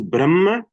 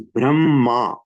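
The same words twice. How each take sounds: First: The word is said short, not stretched. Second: The word is drawn out, a little stretched.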